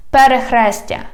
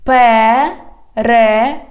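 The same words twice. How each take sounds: First: Said in the usual way. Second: "Перехрестя" slow, in separate syllables. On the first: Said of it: "I read the whole word". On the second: Shown as a demonstration. Teacher has learners repeat, "Перехрестя" slowly by syllables. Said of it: "divide it into syllables".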